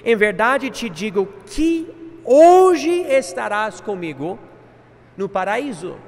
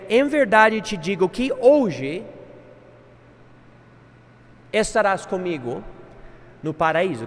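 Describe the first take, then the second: First: It flows without a pause after 'hoje'. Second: There is a pause right after 'hoje'. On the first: Paradise comes on that very day. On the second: Only the statement is made on that day.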